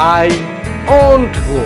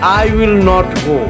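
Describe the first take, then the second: First: Will not is squeezed into one syllable. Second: Will and not are said as two words.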